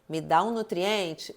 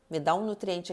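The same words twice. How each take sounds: First: It is said louder than normal. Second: It is said softly and quietly. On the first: The body insists more strongly. "ele começa a falar mais alto" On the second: The body makes a gentle first request. "começou falando baixinho ali para você"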